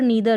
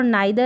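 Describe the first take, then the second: First: The first vowel sounds like 'ee'. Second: The first vowel sounds like 'eye'.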